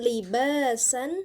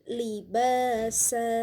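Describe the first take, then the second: First: The word ends with a short vowel plus n. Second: The word ends with a vowel held two counts. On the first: The speaker calls it wrong. "bukan libasan" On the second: The speaker calls it right. "tetapi libasa"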